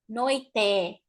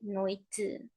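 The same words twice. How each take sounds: First: The final vowel is said fully open. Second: The final vowel is closed and low. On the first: The speaker calls it wrong. "We don't say noite" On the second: The speaker calls it right. "we say noite"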